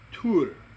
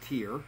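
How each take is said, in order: First: The vowel is an 'oo' sound. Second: The vowel is not an 'oo' sound. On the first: This is the Old Norse pronunciation. "it's the accented Y and it's pronounced U" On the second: This is the common modern pronunciation. "who we all pronounce as Tyr"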